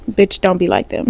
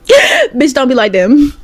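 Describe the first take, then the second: First: Said in the usual way. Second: Louder and higher, a laugh breaking in; laugh, then push the warning harder; laughing emphatic repeat. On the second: Shown as a demonstration. To her viewers, repeating the warning, louder with a laugh.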